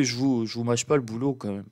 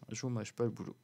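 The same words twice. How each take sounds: First: Said in the usual way. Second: Much softer, half under the breath; quiet aside. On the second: Real, not acted. Vlogger repeating the line to viewers as a soft aside. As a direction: drop the repeat "Je vous mâche pas le boulot" to a murmur.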